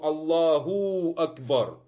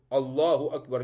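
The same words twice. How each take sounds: First: The long vowel in Allah is stretched out. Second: The long vowel in Allah is held briefly. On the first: The speaker calls it wrong. "Некоторые тянут очень много" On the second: The speaker calls it right. "это два хараката в слове Аллаху Акбар. Все"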